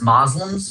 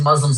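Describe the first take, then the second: First: It is said with the older pronunciation, Moslems. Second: It is said with the modern pronunciation, Muslims. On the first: This is an outdated form from older usage. The speaker calls it wrong. "That's how it was written in the book. M O S L E M" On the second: This is the current accepted form. The speaker calls it right. "the current English understanding of the pronunciation of that word has shifted"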